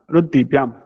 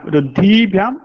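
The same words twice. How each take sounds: First: रुद्धिभ्याम with a short i in द्धि; रुद्धिभ्याम, no lengthening before भ्याम; corrected short vowel. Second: रुद्धिभ्याम with a long drawn ee in द्धि; रुद्धिभ्याम, द्धि held long and raised; wrong long vowel. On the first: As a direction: keep द्धि brief in रुद्धिभ्याम. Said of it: "ह्रस्व ई अस्ति". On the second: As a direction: stretch the i before भ्याम in रुद्धिभ्याम. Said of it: "दीर्घ इकारः नास्ति". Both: Shown as a demonstration.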